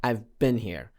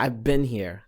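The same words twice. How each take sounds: No difference in how they are said.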